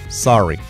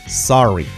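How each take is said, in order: The two takes are said the same way.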